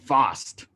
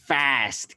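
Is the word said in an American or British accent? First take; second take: British; American. First: The word is said in a British accent. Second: The word is said in an American accent. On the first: "British English වල මේක fast කියලා තමයි කියන්නේ" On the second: "Americans ලා කියනවා ඒක fast කියලා"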